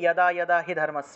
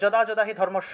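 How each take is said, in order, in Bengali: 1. শ্লোকটি 'ya' ধ্বনি দিয়ে শুরু হয়, সংস্কৃত ধরনে। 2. শ্লোকটি বাংলা ধ্বনি অনুযায়ী পড়া হয়। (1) "এটা হবে ইয়াদা ইয়াদা হি ধর্মস্য, এইভাবে" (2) "আমরা বাংলায় বলে ফেলি"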